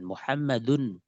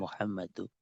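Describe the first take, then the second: First: The name ends with an n sound. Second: The name ends with a plain vowel. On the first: The speaker calls it right. "Mengatakan Muhammad pakai tanwin" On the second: The speaker calls it wrong. "bukan Muhammadu"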